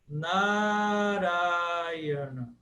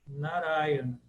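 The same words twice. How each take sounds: First: Two vowels are held long, two are short. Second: The stress falls on the third-to-last syllable. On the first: This is the ancient, sung way of saying it. "na pronúncia clássica é Narayana. Então, dois longos e dois breves" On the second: This is the modern way of saying it. "pronúncia contemporânea da palavra é Narayana, Narayana, como se fosse proparoxítona"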